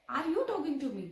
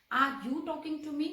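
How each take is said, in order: First: Said in the usual way. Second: Slow, word-by-word model question; slow classroom demo of "Are you talking to me?"; slow teaching read. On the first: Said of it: "अरे, क्या आप मुझसे बात कर रहे हैं?". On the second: Shown as a demonstration. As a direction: spell the question out slowly for the class. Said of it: "interrogative".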